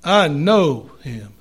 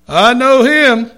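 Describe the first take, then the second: First: KNOW drawn out slowly, HIM dropping low; "I know him", weight on KNOW, falling away on HIM; stress on KNOW. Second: HIM punched high and loud; "I know him" with the weight landing on HIM; stress on HIM. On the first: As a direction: lean slowly on the word "know". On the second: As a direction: hit the word "him", higher and louder. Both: Shown as a demonstration. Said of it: "depending on where you put the emphasis".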